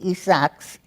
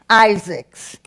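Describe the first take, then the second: First: The name is pronounced with Spanish sounds. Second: The name is pronounced with English sounds. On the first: "In Spanish, it would be" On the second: "I'll pronounce it in English"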